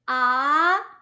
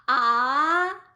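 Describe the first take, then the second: First: The pitch rises from middle to high. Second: The same.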